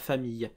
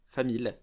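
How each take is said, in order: First: The ending has a y glide sound. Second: The ending has a plain l, no y sound. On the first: This is the standard French pronunciation. The speaker calls it wrong. "pas famille" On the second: This is the Ch'ti pronunciation. The speaker calls it right. "on va dire une famille. Famille, voilà"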